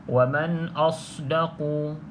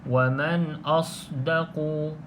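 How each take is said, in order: The two takes are said the same way.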